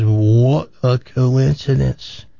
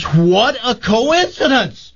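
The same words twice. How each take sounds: First: Drawn-out, measured amazement; slow acted wonder. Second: High, drawn-out mock squeal of wonder; acted excited amazement. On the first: Man reacts to woman's pregnancy news, slow wonder. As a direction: stretch each word out in mock wonder. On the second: Woman at a bar exclaims to stranger, hammed-up amazement.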